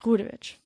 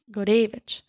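First: Gurevich stressed on the first syllable, GOO-re-vich; Americanized pronunciation. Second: Gurevich stressed on the second syllable, gu-RAY-vich; original Russian stress. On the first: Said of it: "the stress on the first syllable". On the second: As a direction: put the weight on the middle of Gurevich. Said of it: "I really Americaned that". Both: Shown as a demonstration.

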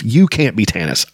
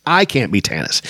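First: Heated, with "You" the strongest word; stress on YOU. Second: Heated, with "I" the strongest word; stress on I. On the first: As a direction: lean on "You", then fall away. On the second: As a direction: lean on "I", then fall away. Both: A narrator's reading. Angry contrast of you and I.

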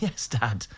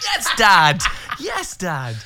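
First: Said in the usual way. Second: Loud, high shout of approval; triumphant cheer. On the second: Acted. Son cheers Dad winning singer over, triumphant shout. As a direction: yell it proudly, pitch way up.

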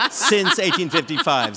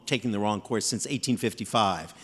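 First: Laughing through the words. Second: Said in the usual way. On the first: Real, not acted. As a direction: chuckle the date out. Repeats date through laughter.

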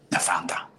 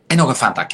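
First: Voiceless whisper on Fanta; disbelieving whisper. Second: Said in the usual way. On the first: Acted. Vlogger repeats a client's drink choice to her viewers, whispered in disbelief.

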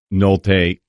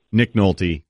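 First: Nolte said the French way, nol-TAY with a final ay; French-sounding Nolte. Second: Said in the usual way. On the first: Shown as a demonstration. Host slips into French for Nolte, sounding like nol-TAY. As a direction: give Nolte a French accent, ending on ay. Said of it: "I gave him the French name". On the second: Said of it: "I don't know why I gave him the French name".

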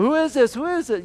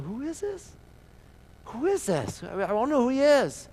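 First: High, loud uproar of the crowd; crowd shouting. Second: High, puzzled bystander's question. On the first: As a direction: shout it out like the whole city asking. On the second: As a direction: ask it like a confused bystander. Someone in the crowd is puzzled. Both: Acted.

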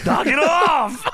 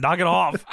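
First: Shouted, slow and high; loud slow shout. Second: Said in the usual way. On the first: Real, not acted. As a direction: yell it out slowly, laughing.

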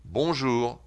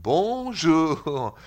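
First: Quick, compact "Bonjour"; French-style bonjour. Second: Long, higher, stretched Swiss French "Bonjour"; Swiss French accent. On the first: Host contrasts with the Swiss take, brisk French "Bonjour". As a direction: say "Bonjour" the French way, without stretching it. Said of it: "See the difference?". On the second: Host contrasts with the French take, slow Swiss French accent. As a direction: drag out each syllable in mock Swiss French. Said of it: "The Swiss goes". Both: Shown as a demonstration.

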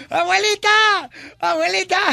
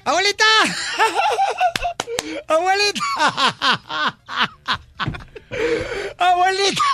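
First: Grito agudo de niño llamando. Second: Gritos agudos de niño entre carcajadas; gritando y riendo. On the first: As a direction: grita como niño que entra corriendo. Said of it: "empieza a gritar". (niño gritando agudo a la abuela) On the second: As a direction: grita llamando y suelta la risa. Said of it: "empieza a gritar y a reírse". (niño grita a la abuela entre carcajadas) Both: Retold or imitated.

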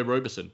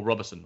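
First: First syllable of Roberson rhymes with "go"; long-O pronunciation. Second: First syllable of Roberson said "rob"; short-O pronunciation. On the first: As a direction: say Roberson as ROH-ber-son. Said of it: "I'm not sure how to". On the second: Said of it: "I'm not sure how to, which way it is". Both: Shown as a demonstration.

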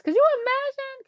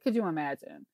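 First: High, disbelieving cry; shocked exclamation, pitched way up; could you imagine, thrown up high in disbelief; incredulous. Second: Low, softer echo to herself; could you imagine, repeated low and soft; muttered repeat. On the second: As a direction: drop it low and quiet. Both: Real, not acted.

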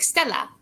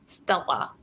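First: "Stella" with a light L flicked at the front of the mouth; Swedish L. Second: "Stella" with a hard, dark L from the back of the throat; Russian L. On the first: Actor showing the Swedish L to the host, "Stella" lightly flicked. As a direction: say "Stella" higher, light and airy. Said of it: "And then Swedish would be like". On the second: Actor showing the Russian L to the host, "Stella" with a throaty L. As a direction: say "Stella" lower and softer, the L held back. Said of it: "this is Russian, like". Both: Shown as a demonstration.

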